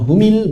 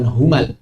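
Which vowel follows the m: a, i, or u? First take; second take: i; a. First: The m is followed by an i vowel. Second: The m is followed by an a vowel. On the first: "bukan humil" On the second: "bukan humal"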